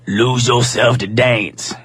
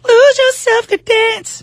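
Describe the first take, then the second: First: It is said in a put-on deeper voice. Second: It is said in her normal voice.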